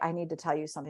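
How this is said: It is said quietly and haltingly, with reluctance. The news is heavy and hard to say. The speaker calls it right. "they can barely get it out"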